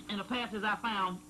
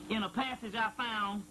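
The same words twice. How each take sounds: The two takes are said the same way.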